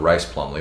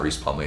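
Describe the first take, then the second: First: The first name has an 'eye' vowel. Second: The first name has an 'ee' vowel. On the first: The speaker calls it right. "It's John Rice Plumley, which we were corrected yesterday" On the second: The speaker calls it wrong. "I know we've been saying it wrong. It's not Reese Plumley"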